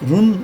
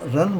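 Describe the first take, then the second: First: The vowel is a short 'oo' sound. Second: The vowel is a short 'uh' sound. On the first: The speaker calls it wrong. "रुन नहीं बोलेंगे हम" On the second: The speaker calls it right. "रन बोलेंगे"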